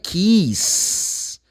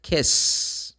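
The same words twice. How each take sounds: First: KISS drawn out with a long EE, "keess"; wrong vowel. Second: KISS with a short, lax I; correct vowel. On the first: Teacher rejects a very common mistake, KISS with long EE. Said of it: "But the word is not kiss". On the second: Teacher gives the real word, KISS with short I. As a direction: keep the I in KISS short before the S. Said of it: "The word is kiss". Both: Shown as a demonstration.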